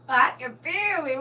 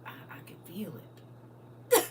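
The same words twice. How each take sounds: First: Slow, laughing through a fake cry; laughing mock sob. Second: Slow, whispered, half-sobbing; mock crying whisper. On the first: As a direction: break into laughter while weeping. Overcome, laughing repeat. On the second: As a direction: pretend to weep over the food. Overcome by food memory. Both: Real, not acted.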